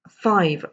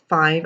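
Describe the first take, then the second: First: The last consonant is a clear V. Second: The last consonant is not a clear V. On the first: The speaker calls it right. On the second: The speaker calls it wrong.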